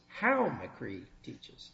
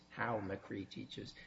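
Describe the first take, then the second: First: The phrase is said in a raised voice. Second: The phrase is said in a lowered voice. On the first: "raise your voice" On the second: "and then you lowered your voice"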